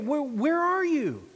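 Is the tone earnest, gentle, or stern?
earnest. It is said in an urgent, earnest tone. God is calling out with urgent concern. "Was it earnest?"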